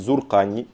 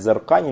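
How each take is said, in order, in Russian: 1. Гласный после Z — 'u'. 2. Гласный после Z не 'u'. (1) "Асах правильно говорит Зуркани, то есть Билламизайн" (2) "Некоторые говорят Зуркани, но это неправильно"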